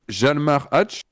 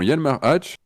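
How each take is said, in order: First: The name begins with a J sound. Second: The name begins with a Y sound. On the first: The speaker calls it wrong. "je vais sûrement très mal le prononcer" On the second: The speaker calls it right. "j'aurais prononcé le J comme un I. Yalmar. ... peut-être que c'est mieux"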